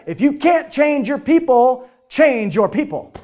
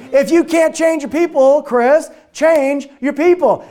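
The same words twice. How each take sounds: First: Slow, punch each word; emphatic saying. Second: Louder, slow, hammer the word change; emphatic repeat. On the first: Retold or imitated. Quoting Jeff's rule to the team, slow and emphatic. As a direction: lay it down slowly like a rule. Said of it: "here's what he said". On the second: Shown as a demonstration. Repeating Jeff's rule to the audience, loud and slow. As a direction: drive "change" home slowly and loudly. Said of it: "Isn't that good?".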